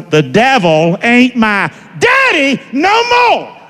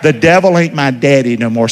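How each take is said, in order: First: Slow, high preacher's shout; louder declaration. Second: Said in the usual way. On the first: Shown as a demonstration. Preacher leading the congregation louder, slow rousing shout. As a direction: shout it out word by word, pitch soaring. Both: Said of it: "Can you say it a little louder?".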